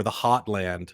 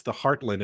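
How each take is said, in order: First: "Hotland" with no R and an open "ah" vowel; slow it down and leave the R out of "Hotland"; dropped R. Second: "heartland" with the R clearly sounded; hit the R. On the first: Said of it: "not the Hatland or the Hotland". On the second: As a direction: lean a little on the R in "heartland". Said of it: "you hit the R a little bit". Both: Shown as a demonstration.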